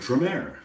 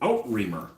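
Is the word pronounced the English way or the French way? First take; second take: French; English. First: The word is said with a French-style pronunciation. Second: The word is read with an English-style pronunciation. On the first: This is how the word is actually said. The speaker calls it right. "I will now call it Outremer" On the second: This is how it looks when read, not how it is said. The speaker calls it wrong. "I always read it at Outremer. Let's just say it's not pronounced that way"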